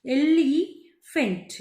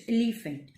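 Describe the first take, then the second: First: एलिफेंट slow, stretched el-ee, gap, fent; drawn-out एलिफेंट, syllables apart; divided in three. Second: Said in the usual way. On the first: Shown as a demonstration. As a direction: sound out एलिफेंट in three parts. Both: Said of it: "three में मैंने divide किया है".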